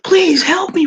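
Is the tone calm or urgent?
urgent. It is said in an urgent, pressing tone.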